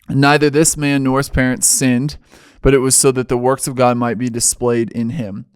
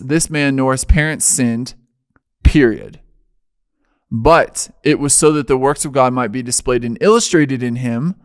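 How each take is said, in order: First: It runs on without a full stop after sinned. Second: It has a full stop after sinned.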